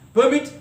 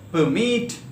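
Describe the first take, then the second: First: The stress is on the first syllable. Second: The stress is on the second syllable. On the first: It is used as a noun or adjective. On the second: It is used as a verb.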